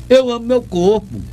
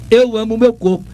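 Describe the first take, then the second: No difference in how they are said.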